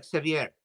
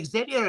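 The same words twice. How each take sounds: First: Xavier said as "ek-sa-vee-AIR"; Xavier ending in a stressed "vee-AIR"; pronunciation sa-vee-AIR. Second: Xavier said as "ex-ZAY-vee-er"; Xavier the English way, "ex-ZAY-vee-er"; pronunciation ZAY-vee-er. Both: Shown as a demonstration. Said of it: "do I call you Xavier or Xavier".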